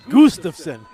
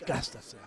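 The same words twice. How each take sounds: First: The name is pronounced the German way. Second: The name is pronounced the plain English way. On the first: The speaker calls it wrong. "I was pronouncing it the German way" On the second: The speaker calls it right. "it's Gustafson"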